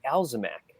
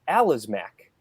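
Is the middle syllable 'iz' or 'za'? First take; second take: za; iz. First: The middle syllable sounds like 'za'. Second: The middle syllable sounds like 'iz'. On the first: The speaker calls it wrong. "not the Alzamac" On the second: The speaker calls it right. "the it's the Alizmac"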